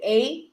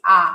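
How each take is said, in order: First: Said in the usual way. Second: "A" said as an open "ah". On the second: Shown as a demonstration. Explaining the Portuguese accent to the host, "A" said "ah". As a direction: pronounce the letter "A" like "ah", as in Portuguese. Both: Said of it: "The A is A".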